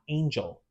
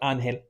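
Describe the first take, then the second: First: The name is pronounced the English way. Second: The name is pronounced the Spanish way. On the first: This is not how he wants to be called. The speaker calls it wrong. "not Angel" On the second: This is how he wants to be called. The speaker calls it right. "he goes by Angel"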